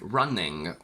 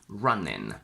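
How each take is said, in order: First: It ends in ng plus a g sound. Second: It ends in a plain n sound. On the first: "we add a g" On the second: "a lazier option where we simply say n instead of ng"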